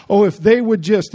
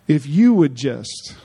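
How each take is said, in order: First: "they" leaned on in a mock complaint; stress on THEY. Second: "you" drawn out and emphasized, slow phrase; stress on YOU. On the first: Preacher mimicking the offended waiting on others, "they" stressed. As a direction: put the blame on "they", pushed louder. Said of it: "no, if you would just". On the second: Shown as a demonstration. Preacher correcting the complaint for the congregation, "you" stressed slowly. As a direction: turn it back on the listener with a slow, weighty "you". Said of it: "That's what Jesus is saying".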